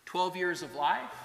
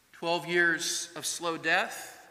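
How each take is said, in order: First: Said in the usual way. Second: "slow death" drawn out slowly. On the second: Shown as a demonstration. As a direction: stretch out "twelve years of slow death".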